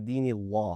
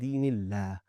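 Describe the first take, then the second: First: The L is heavy, with a raised tongue back. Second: The L is thin, with a flat tongue. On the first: The speaker calls it wrong. "We did not say دِينِ اللَّه" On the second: The speaker calls it right. "We said دِينِ اللَّه. We keep our tongue flat"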